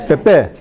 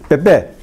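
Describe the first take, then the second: No difference in how they are said.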